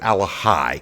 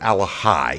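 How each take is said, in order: First: The middle consonant is a soft H sound. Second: The middle consonant is a soft H sound.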